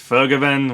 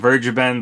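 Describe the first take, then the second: First: The name is said with a German accent. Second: The name is said with an American accent. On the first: "I got to put on like a German accent a little bit" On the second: "I call him Vergeben"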